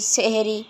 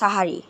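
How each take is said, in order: First: The word is said with 'e' vowels, seh-ri. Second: The word is said with 'a' vowels, sa-ha-ri. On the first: The speaker calls it wrong. "অনেকে মনে করেন যে সেহেরি ... কিন্তু আসলে এইটা হবে না" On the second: The speaker calls it right. "তো উচ্চারণ হবে কি সাহারি"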